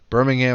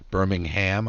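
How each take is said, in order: First: The final syllable 'ham' is weak. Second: The final syllable 'ham' is stressed. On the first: This is the Alabama town. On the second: This is the British town.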